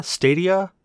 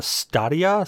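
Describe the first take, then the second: First: "Stadia" said STAY-dee-uh with an ay vowel; "Stadia" as STAY-dee-uh, the first vowel like day. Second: "Stadia" said STAH-dee-uh with a broad ah vowel; "Stadia" as STAH-dee-uh, the first vowel like father. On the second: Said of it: "I'm gonna say this wrong". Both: Shown as a demonstration.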